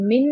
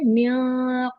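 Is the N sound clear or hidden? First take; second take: clear; hidden. First: The N sound is fully and clearly pronounced. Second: The N sound is hidden and nasalized. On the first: The speaker calls it wrong. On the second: The speaker calls it right.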